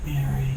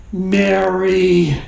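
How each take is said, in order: First: Soft, short "Mary", near a whisper; hushed. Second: Drawn-out "Mary", called out mildly; mock calling out. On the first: Acted. Jesus softly calling Mary by name at the tomb, hushed. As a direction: say the name low and gently. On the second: Jesus calling Mary by name at the tomb, mildly called out. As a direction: call the name out, stretching it. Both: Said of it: "whether it was a shout or a whisper".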